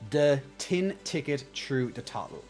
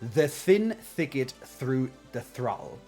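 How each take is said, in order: First: The words are said with a t sound. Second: The words are said with a th sound. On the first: "how we would literally say that is the tin ticket through the throttle" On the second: "I have to focus on that one a bit more"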